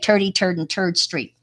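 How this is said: It is said in a Brooklyn accent.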